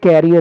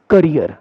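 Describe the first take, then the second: First: It sounds like the word carrier. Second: It sounds like the word career. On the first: It names the rack at the back of a bicycle. The speaker calls it wrong. "ਇਹ ਕੈਰੀਅਰ ਨਹੀਂ" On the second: It names a person's working life. The speaker calls it right. "It's ਕਰੀਅਰ"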